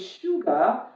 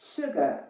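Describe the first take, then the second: First: The first vowel is a long ooh. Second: The first vowel is short. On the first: The speaker calls it wrong. "you were talking about the long sound ooh" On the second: The speaker calls it right. "not shoe. The reason is is a short sound"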